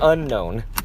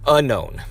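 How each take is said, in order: First: The word begins with an 'un' sound. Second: The word begins with a 'you' sound. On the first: The speaker calls it wrong. "I still just have a proclivity to say unknown" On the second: The speaker calls it right. "I guess we should say it that way. It's almost like saying you known"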